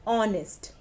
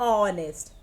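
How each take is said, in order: The two takes are said the same way.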